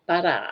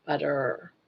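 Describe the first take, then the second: First: "Butter" said as pata, short falling. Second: "Butter" with an r ending, quieter; butter with a clear r. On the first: Scene: caller showing how she says butter. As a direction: say "Butter" like pata with a quick fall. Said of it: "No, you're saying butter". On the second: Scene: host repeating the caller's butter back. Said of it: "you're saying butter". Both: Shown as a demonstration.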